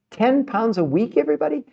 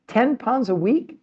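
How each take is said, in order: First: Mock disbelief. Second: High, slow, even more amazed repeat; mock disbelief. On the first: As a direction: stretch out "Ten pounds a week" as if you can't believe it. Rhetorical disbelief at weight loss. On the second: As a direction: ask "Ten pounds a week?" as if it were unheard of.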